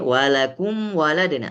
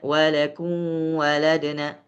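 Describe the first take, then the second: First: The m is fully pronounced with closed lips. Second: The m is weakened and not fully pronounced. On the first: The speaker calls it right. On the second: The speaker calls it wrong.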